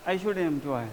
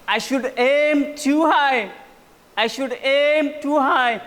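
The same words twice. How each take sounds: First: Said in the usual way. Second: Aim drawn out, higher and louder; slow emphatic I should aim too high with aim punched; stress on aim. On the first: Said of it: "aim को उसने ऐसे नहीं बोल दिया". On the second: Shown as a demonstration. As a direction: lean hard on aim, slowly. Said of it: "जो एम को उसने बोला ना".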